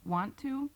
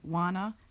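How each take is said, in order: First: Both words are said fully and separately. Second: The words blend into one reduced word. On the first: "the pronunciation of" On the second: "an informal style of American English"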